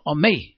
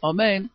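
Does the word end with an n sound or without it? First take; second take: without n; n sound. First: The word ends without the n sound. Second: The word ends with an n sound. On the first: The speaker calls it wrong. "שהוא מבליע את האות, הוא אומר אומי, בלי הנון" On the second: The speaker calls it right. "כמו שאנחנו אומרים, בקומץ"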